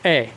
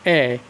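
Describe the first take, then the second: First: The vowel is said short and quick. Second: The vowel is held about twice as long. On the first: "यदि मैं ह्रस्व स्वर इस ए का उच्चारण करूं" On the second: "दीर्घ स्वर वाली इस ए का उच्चारण करूं"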